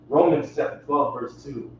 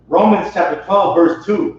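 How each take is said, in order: First: It is read at a normal, softer volume. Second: It is read louder with a deeper voice.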